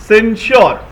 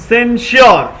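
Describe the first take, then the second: Both takes have the same delivery.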